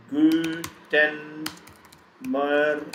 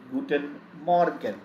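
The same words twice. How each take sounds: First: Guten Morgen in long held syllables with gaps; syllable-by-syllable pronunciation. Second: Said in the usual way. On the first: Shown as a demonstration. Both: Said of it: "How do we pronounce it?".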